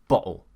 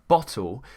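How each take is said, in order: First: The middle T becomes a glottal stop. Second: The middle T is fully pronounced. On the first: "could become bottle" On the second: "a word like bottle"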